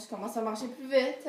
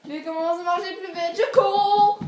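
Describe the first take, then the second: First: Said in the usual way. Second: Hammed-up escalating alarm; mounting chase panic. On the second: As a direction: build the chase to a long, high wail.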